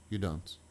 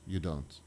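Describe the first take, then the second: No difference in how they are said.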